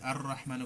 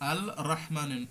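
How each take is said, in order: First: The L merges into a doubled R sound. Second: The L is clearly sounded before the R. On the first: The speaker calls it right. "এই জন্য এখানে ওই লাম আর উচ্চারণ করা হয় না" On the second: The speaker calls it wrong. "আপনি উচ্চারণ করতে যান, দেখেন অনেক কষ্ট"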